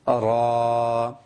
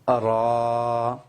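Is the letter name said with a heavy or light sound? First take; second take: heavy; heavy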